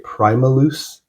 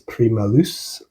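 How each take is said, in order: First: The name is said with English pronunciation. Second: The name is said with French pronunciation. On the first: "If I were to say it like an English person" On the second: "they're a French band, so maybe it's"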